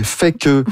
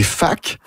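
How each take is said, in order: First: "fait que" in two syllables; "fait que" with both words distinct; neutral full form. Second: "fac" as one syllable; casual contraction "fac", ending on a hard k; familiar contracted form. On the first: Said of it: "qui serait neutre". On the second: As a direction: run "fait que" together into "fac". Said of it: "qui devient familier". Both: Shown as a demonstration.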